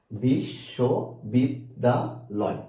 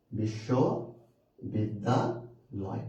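First: বিশ্ববিদ্যালয় very slow as বিশ, শ, বিদ, দা, লয়; five separate syllables. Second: বিশ্ববিদ্যালয় very slow, in three chunks, বিশ্ব, বিদ্যা, লয়; long pauses after বিশ্ব and বিদ্যা; three-part split. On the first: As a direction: pause after every syllable of বিশ্ববিদ্যালয়. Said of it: "এই যে, যে পাঁচটা অক্ষর". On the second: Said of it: "অনেকে যেটা মনে করে এখানে অক্ষর আছে তিনটা". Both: Shown as a demonstration.

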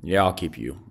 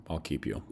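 First: Said in the usual way. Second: Softer repeat under the breath; murmured repeat of his own decision; quiet echo. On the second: Real, not acted. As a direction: say it again to yourself, softly.

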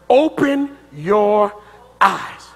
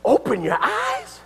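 First: Weighty, deliberate scripture quote; solemn quote. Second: High, rising echo in disbelief; incredulous question. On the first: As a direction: spell it out slowly, word by word. Quotes Solomon's prayer solemnly, slowly. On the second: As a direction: repeat it back as a baffled question. Incredulously repeats Solomon's demand. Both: Acted.

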